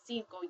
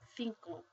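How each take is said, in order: First: The word begins with an s sound. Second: The word begins with a th sound. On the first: This is how most Spanish speakers say it. "instead of making this, pronouncing this as cinco" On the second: This is how it is said in southern Spain. "you'd call it cinco"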